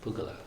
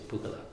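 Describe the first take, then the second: First: Single g, final vowel shortened. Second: The same.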